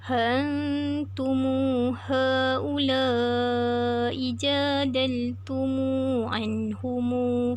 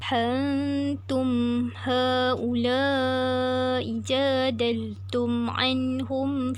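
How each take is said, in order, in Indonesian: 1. Kata-kata itu berakhir dengan vokal u yang ditambahkan. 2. Kata-kata itu berakhir dengan bunyi m yang tertutup. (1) "silah mim jamak" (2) "sukun mim jamak"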